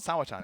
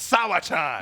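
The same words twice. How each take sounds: First: The name is said at a normal volume. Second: The name is shouted loudly. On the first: The speaker calls it wrong. "It's not Sawa-chan" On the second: The speaker calls it right. "You scream it"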